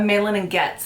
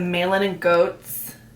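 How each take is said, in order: First: The last name sounds like 'gets'. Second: The last name sounds like 'goats'. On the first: The speaker calls it right. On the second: The speaker calls it wrong.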